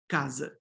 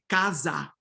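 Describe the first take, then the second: First: The final vowel is a weak reduced sound. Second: The final vowel is a full open a. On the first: The speaker calls it right. "But we're going to say casa" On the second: The speaker calls it wrong. "We're not going to say casa"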